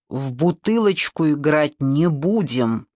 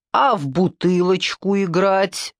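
First: Slow, firm refusal; measured, decisive no. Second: Slow, drawn-out tipsy question; lightly voiced drunken appeal; tipsy request. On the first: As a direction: lay down the law without raising the voice. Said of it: "сказал он твёрдо". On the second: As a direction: remember it late and ask hopefully, slowly. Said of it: "вспомнил он". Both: A narrator's reading.

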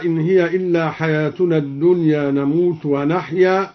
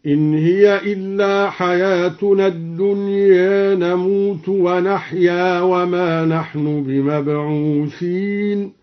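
First: Said in the usual way. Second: الدنيا ending tilted toward e, "dunye"; measured chanted recitation, final vowel of الدنيا between a and e; recited with taqlil. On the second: Shown as a demonstration. Teacher demonstrates al-Duri's reading, reciting الدنيا with an e-like ending. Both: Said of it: "قرأ الدوري بتقليل الدنيا هكذا".

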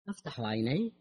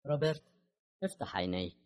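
First: "افتح عيني" with a rising end; questioning echo. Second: Emotionless. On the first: Same words echoed as a question. (افتح عيني بنبرة سؤال صاعدة) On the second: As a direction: say it with no emotion at all. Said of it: "قالت كاثرين بصوت خال من أي انفعال". (صوت خالٍ من أي انفعال) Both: A narrator's reading.

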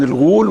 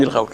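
First: Long "oo" in الغول; الغول with a rounded u vowel; damma in الغول. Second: الغول with an a vowel gliding to w; fatha in الغول. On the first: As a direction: say الغول as al-ghool. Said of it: "غول بضم الغين". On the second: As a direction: say الغول as al-ghawl. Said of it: "بفتح الغين". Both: Shown as a demonstration.

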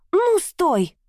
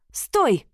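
First: Much higher, desperate shout; shrill demand. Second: Higher, sharp exclamation; sharp cry. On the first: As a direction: scream it to freeze him. Heroine halts husband, knife at throat. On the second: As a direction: snap it out to stop him. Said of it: "воскликнула я резко". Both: A narrator's reading.

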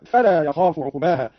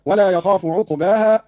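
First: "فلا" opening with f, as "falaa"; faa for waw. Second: Said in the usual way. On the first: Shown as a demonstration. ("فلا" بالفاء) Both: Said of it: "قرأ قالون بالفاء هكذا".

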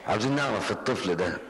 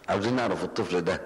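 No difference in how they are said.

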